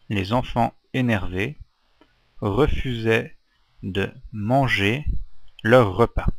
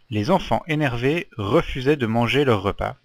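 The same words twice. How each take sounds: First: It is read slowly and deliberately. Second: It is read at a normal, fluent pace.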